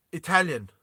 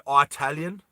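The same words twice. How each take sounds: First: Said in the usual way. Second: "Italian" with a long first vowel, EYE-talian; alternative pronunciation. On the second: Shown as a demonstration. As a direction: say "Italian" starting like the word eye. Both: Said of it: "do you guys say Italian".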